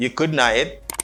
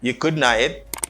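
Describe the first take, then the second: First: Couldn't have is run together into a reduced form. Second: The same.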